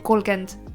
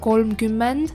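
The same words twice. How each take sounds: First: The word is said with its ending clipped. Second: The word is said with every syllable in full. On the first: "but we say kolmkümmend" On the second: "like kolmkümmend"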